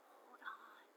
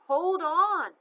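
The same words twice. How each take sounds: First: Soft unvoiced whisper, far away. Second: Loud, much higher urgent shout; louder call. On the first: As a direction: breathe it like a voice in her mind. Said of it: "just a whisper at first". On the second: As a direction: call out to her, desperate. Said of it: "It got louder". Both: A narrator's reading.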